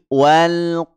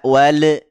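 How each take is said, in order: First: The final L is held smoothly without a bounce. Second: The final L is released with a bouncing echo. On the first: The speaker calls it right. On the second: The speaker calls it wrong.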